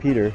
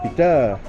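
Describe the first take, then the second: First: The stress is on the first syllable. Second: The stress is on the second syllable. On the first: The speaker calls it wrong. "not Peter" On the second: The speaker calls it right. "but Pita"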